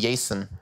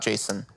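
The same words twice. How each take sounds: First: The name begins with a Y sound. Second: The name begins with a J sound. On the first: "J's are Y sounds. So I would be Jason" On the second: "not Jason"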